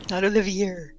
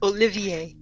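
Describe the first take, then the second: First: The final R is sounded. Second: The final R is silent. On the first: The speaker calls it wrong. "Still pronouncing that R" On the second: The speaker calls it right. "Still pronouncing that R"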